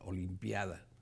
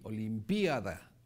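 First: The i glides smoothly into the a. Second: The i is stressed and split from the a. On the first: "o la puede decir así, parejita" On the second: "Usted le puede poner el acento en la I"

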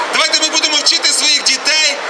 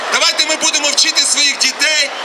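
Both takes have the same delivery.

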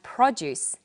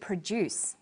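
First: The stress is on the first syllable. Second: The stress is on the second syllable. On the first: It is a noun: fruit and vegetables. "produce that you eat" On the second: It is a verb: to make something. "to produce"

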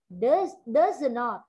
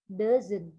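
First: It is said as two full separate words. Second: It is said as one short contracted word. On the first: "từ does not" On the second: "ta viết tắt là doesn't"

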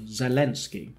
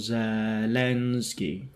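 First: The stress is on the second syllable. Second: The stress is not on the second syllable. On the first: The speaker calls it right. "留意个重音咧，就系个len 第二个音节嘅部分len 嗰度" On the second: The speaker calls it wrong. "所以就唔好读Zelensky"

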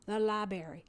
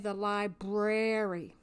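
First: The first R in library is dropped. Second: Both R sounds in library are pronounced. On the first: The speaker calls it wrong. "Very educated people saying the library" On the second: The speaker calls it right. "There are two R's in library. Make sure you say the library"

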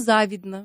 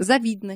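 First: The stress is on the first syllable. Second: The stress is on the second syllable. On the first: The speaker calls it wrong. "не завидно" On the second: The speaker calls it right.

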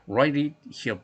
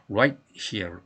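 First: The word 'it' is pronounced clearly. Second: The word 'it' is nearly dropped, linked in.

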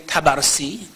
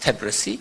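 First: The name is said as ta-bar-si. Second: The name is said as tab-ri-si. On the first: The speaker calls it wrong. "usually we say Tabarsi as a wrong mashhadi sort of pronunciation" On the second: The speaker calls it right. "but it's Tabrisi"

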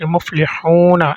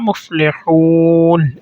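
First: The word ends with a final vowel after n. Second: The word ends on n with no vowel. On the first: "আপনি মুফলিহুনা এভাবেও বলতে পারবেন" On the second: "আপনি চাইলে সুন্দরের জন্য মুফলিহুন এভাবে বলতে পারবেন"

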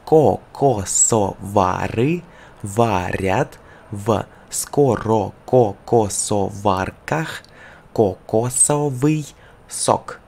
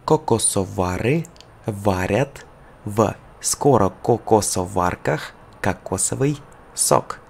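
First: It is said very slowly. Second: It is said at a faster pace. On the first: "Slow, very slow" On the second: "One more time, more faster"

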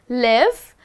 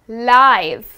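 First: The vowel is short, like 'ih'. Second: The vowel is long, like 'eye'. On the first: Having your home somewhere. The speaker calls it wrong. "We are not saying live" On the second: Being shown as it happens. The speaker calls it right. "but we are saying live"

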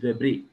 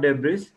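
First: The final consonant sound is silent. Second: The final consonant sound is pronounced. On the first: The speaker calls it right. "sound is missing" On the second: The speaker calls it wrong. "It's not debris"

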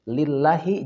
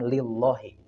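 First: The 'l' in 'llahi' is light and thin. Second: The 'l' in 'llahi' is heavy and thick. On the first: The speaker calls it right. "tidak perlu ditebalkan" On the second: The speaker calls it wrong.

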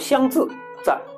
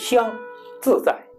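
First: A break follows the second syllable. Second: A break follows the first syllable. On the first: The speaker calls it wrong. "你不能说香自在，这样就不对了" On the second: The speaker calls it right. "它是一二节奏"

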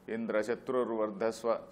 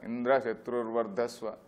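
First: The stress is on Shatrurvardhasva, not Indra. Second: The stress is on Indra.

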